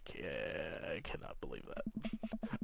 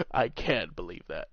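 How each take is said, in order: First: Soft disbelief. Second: Said in the usual way. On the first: Acted. Repeats disbelief line, softer.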